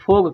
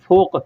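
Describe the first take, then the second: First: The word ends with a g sound. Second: The word ends with a deep k sound. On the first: This is the everyday spoken form. "लोग बोलने की ज़ुबान में फ़ोग, फ़ोग कहते हैं" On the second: This is the formal form used in Quran reading. "बड़ा काफ़ है, फ़ा, वाव और काफ़ यानी फ़ोक"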